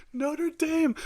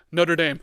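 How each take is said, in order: First: Mocking sing-song. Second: Loud announcement. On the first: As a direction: say "Notre Dame" very high and squeaky, in a taunt that falls away. Mocking the beaten team. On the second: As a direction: call out "Notre Dame" loud and punchy, with the stress on "Notre". Announcing the Notre Dame upset. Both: Real, not acted.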